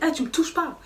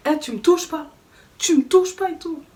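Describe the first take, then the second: First: Firm raised warning; warning him off. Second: High, loud angry yelling, building; retold angry yell. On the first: Retold or imitated. To the man shoving her, a firm warning. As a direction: push him back with your voice. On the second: Shoved out the door, she yells back at him. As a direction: yell it at him, getting louder each time. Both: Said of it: "je me suis énervée".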